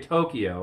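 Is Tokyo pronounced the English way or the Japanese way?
English. It is pronounced the English way. This is how English speakers say it. "We'd say Tokyo"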